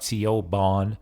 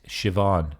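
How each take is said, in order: First: The middle consonant is a B sound. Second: The middle consonant is a V sound. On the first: The speaker calls it wrong. "not Siobhan" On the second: The speaker calls it right. "It's Siobhan, alright? That's how it's pronounced. B is kind of like a V sound in Irish"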